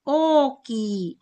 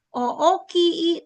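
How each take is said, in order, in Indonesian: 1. Vokalnya menyatu menjadi satu bunyi panjang. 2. Vokalnya dipotong menjadi ketukan-ketukan terpisah. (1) "tapi oki" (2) "Tidak dibaca o-o-ki, tidak"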